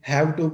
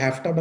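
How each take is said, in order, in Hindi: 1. दोनों शब्द पूरे और अलग-अलग बोले जाते हैं। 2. दोनों शब्द f की आवाज़ के साथ घुल जाते हैं।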